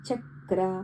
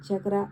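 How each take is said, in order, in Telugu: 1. మొదటి అక్షరం ఎత్తి, సాగదీసి పలుకుతారు. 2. మొదటి అక్షరం చిన్నగా, తేలికగా పలుకుతారు. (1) "దాన్ని అలా ఎత్తి పలకాల్సి ఉంటుందన్నమాట" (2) "చక్ర అని కాకుండా"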